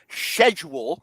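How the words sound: It begins with an sh sound. The team is playing in England. "when they travel to England in week five"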